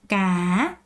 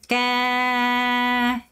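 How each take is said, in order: First: The pitch dips then rises at the end. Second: The pitch falls low through the end. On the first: "끝을 올려주는 게 핵심입니다" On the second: "끝까지 내리세요"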